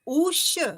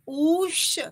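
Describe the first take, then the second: First: The vowel is held for two beats. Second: The vowel is held for three beats. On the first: "द्विमात्रिक उकार" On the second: "त्रिमात्रिक उकार"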